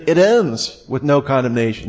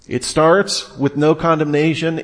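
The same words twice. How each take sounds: First: "ends" hit as the key word; "ends" given the main weight, the rest plain; stress on ends. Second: "starts" hit as the key word; "starts" given the main weight, the rest plain; stress on starts. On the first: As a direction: punch "ends" to mark the closing bracket. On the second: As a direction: punch "starts" to mark the opening bracket. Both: Shown as a demonstration. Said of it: "this chapter is bracketed".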